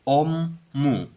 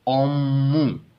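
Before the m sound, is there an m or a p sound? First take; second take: m; m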